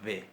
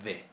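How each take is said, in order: No difference in how they are said.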